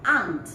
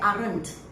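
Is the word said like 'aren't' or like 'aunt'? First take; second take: aunt; aren't. First: The word sounds like 'aunt'. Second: The word sounds like 'aren't'. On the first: The speaker calls it right. "the correct pronunciation is aunt" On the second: The speaker calls it wrong. "they say aren't"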